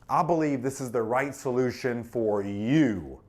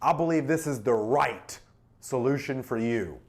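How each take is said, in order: First: The word "you" carries the stress. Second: The word "right" carries the stress. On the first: The solution is tailored to the listener. "That makes it personal" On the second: The solution is a perfect fit. "Emphasizes perfect fit"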